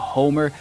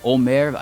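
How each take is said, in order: First: The name is said with an English pronunciation. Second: The name is said with a German pronunciation. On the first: "say it like the old Greek writer" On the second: "It's the German pronunciation"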